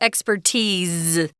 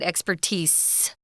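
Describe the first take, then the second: First: The word ends with a z sound. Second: The word ends with an s sound. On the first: The speaker calls it right. "Notice I'm saying it with a Z sound" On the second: The speaker calls it wrong.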